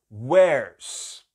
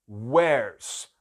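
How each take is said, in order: Both takes have the same delivery.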